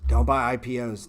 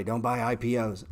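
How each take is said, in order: First: Louder, pushed repeat of Don't; mock yell. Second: Said in the usual way. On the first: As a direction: bark the warning a second time, louder. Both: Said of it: "I was yelling at everybody".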